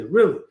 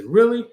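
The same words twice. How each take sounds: First: Said in the usual way. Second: Surprised really. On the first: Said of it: "She's gonna say". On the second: Acted. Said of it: "You're gonna say".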